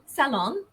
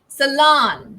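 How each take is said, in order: First: The stress is on the first syllable. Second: The stress is on the second syllable. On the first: This is the British pronunciation. "the stress is on the first syllable" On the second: This is the American pronunciation. "the stress falls on the second syllable"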